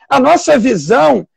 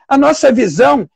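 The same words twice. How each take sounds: The two takes are said the same way.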